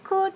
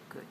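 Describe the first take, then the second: First: The word is full, long and strong. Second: The word is short, low and weak. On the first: The speaker calls it wrong. "don't we say could" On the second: The speaker calls it right. "the word is weak. It's much shorter"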